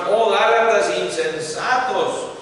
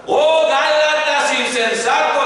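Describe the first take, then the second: First: Said in the usual way. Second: High, loud exclaimed cry; shouting the verse. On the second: Shown as a demonstration. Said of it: "como gritando".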